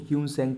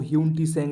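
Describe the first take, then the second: First: No T sound is said mid-name. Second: A separate T sound is said mid-name. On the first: This is how the name is read aloud. The speaker calls it right. "इसको ह्यून सैंग पढ़ते हैं, इसमें टी silent होता है" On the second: This is how the name is written. The speaker calls it wrong. "इसको ह्यून टी सैंग लिखा हुआ है"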